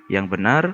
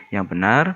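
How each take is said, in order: The two takes are said the same way.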